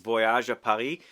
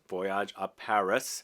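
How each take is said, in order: First: It is pronounced the French way. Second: It is pronounced the English way. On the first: "I think that's how you say it" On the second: "if you want to say it in English"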